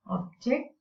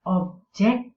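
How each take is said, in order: First: OB-ject, second syllable light; first-syllable stress. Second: Ob-JECT, first syllable light; second-syllable stress. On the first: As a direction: object with the stress on OB. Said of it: "the stress is on the first syllable". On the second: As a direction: object with a strong stress on JECT. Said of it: "the stress is on the second syllable". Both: Shown as a demonstration.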